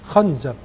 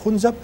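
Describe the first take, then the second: First: The first vowel is an open a sound. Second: The first vowel is a rounded u sound.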